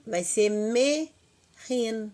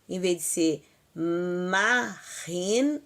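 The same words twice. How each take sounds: First: "me ren" devagar, sílabas separadas e subindo; correct vowel me. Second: "ma ren" dito devagar como forma errada; wrong vowel ma. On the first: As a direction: marque o "me" de "me ren" com clareza. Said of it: "É isto". (forma correta "me ren", lenta) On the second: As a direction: alongue "ma ren" como exemplo do que não dizer. (forma errada "ma ren", lenta) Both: Shown as a demonstration.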